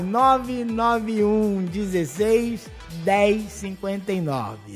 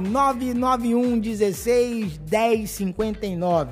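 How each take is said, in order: First: The number is said slowly. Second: The number is said fast.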